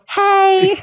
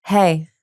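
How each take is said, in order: First: Hey very high and louder; squeaky nervous hey. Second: Said in the usual way. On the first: Shown as a demonstration. Coach shows the nervous greeting she avoided, squeaky high. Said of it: "I didn't go". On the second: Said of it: "when I was like".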